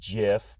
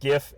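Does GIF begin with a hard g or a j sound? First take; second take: j sound; hard g. First: It begins with a soft j sound. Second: It begins with a hard g sound. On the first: "technically it's pronounced GIF" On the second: "I'm going to keep on calling it GIF"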